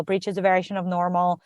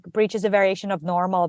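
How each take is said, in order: First: Repeated mantra, fading quieter; softly repeated self-reassurance; softer mantra. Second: Mantra. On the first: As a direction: murmur it to yourself like a mantra, dropping away. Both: Retold or imitated. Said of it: "almost like a mantra".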